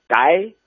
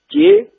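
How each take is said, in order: First: The word is pronounced like gai. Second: The word is pronounced like jie. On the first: This is the original Sichuan dialect pronunciation. "大街是街啊" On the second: This pronunciation has drifted toward Standard Mandarin. "更多人都把它说成了写、街"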